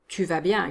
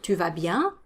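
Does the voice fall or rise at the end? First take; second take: falls; rises. First: The voice stays level or falls at the end. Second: The voice rises at the end. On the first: It states that the other person is doing well. "you're just telling the other person they're doing well" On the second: It asks whether the other person is doing well. "you need to go up at the end"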